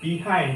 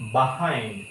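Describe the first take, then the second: First: The first syllable sounds like 'bee'. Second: The first syllable sounds like 'buh'. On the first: The speaker calls it wrong. "যেটা আমরা বলি" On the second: The speaker calls it right. "এটা actually হবে বাহাইন্ড"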